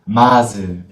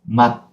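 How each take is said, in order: First: A vowel is released after the final consonant. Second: The final consonant is closed and cut short. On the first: The speaker calls it wrong. "it is not 마즈" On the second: The speaker calls it right. "we have to close and cut"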